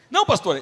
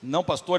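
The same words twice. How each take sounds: First: "Não" punched higher and louder, falling; emphatic refusal. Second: Said in the usual way. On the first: Retold or imitated. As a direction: insist on "Não, pastor". ("Não" forte e agudo, caindo no fim) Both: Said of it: "a igreja ri de mim".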